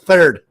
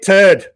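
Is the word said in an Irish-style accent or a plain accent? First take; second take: plain; Irish-style. First: It is said in a plain accent with 'th'. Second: It is said in an Irish-style accent, 'th' as 't'. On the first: "It's thirds" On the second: "I'm not Irish, so I don't pronounce it turds like that"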